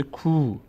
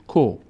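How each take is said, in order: First: "کو" said as a long koo; long vowel. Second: "کو" said as a short ko; brief o in "کو"; short vowel. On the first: Teacher adding vav to kaf, long "کو" as koo. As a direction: stretch "کو" into held oo. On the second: Teacher showing kaf alone, short "کو" as ko. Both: Shown as a demonstration. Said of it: "صدای کشیدهٔ او".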